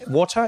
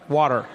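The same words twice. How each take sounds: First: It is said in the speaker's English accent. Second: It is said in an American accent.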